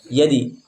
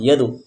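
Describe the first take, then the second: First: The bounce after d sounds like i. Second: The bounce after d sounds like u. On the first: "condong kepada kasroh yadi" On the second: "condong kepada dhammah yadu"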